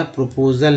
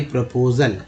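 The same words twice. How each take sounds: First: "प्रपोजल" with a full O in PRO; rounded O in the first syllable of "प्रपोजल"; mistaken pronunciation. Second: "प्रपोजल" with a short pruh opening; unrounded short first vowel in "प्रपोजल"; corrected pronunciation. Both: Shown as a demonstration. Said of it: "प्रपोजल नहीं".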